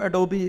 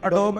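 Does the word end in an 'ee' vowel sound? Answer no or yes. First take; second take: yes; no. First: It ends with an added 'ee' vowel sound. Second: It ends on the 'b' with no final vowel. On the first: This is how it is said in the US. "US में उसको एडोबी pronounce करते हैं" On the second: This is how it is said in India. "India में उसको एडोब बोलते हैं।"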